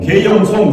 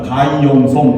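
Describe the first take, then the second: First: The first syllable is said as 'gye'. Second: The first syllable is said as 'guy'.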